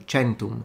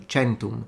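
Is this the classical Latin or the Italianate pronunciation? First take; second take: Italianate; Italianate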